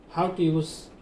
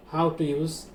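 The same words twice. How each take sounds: The two takes are said the same way.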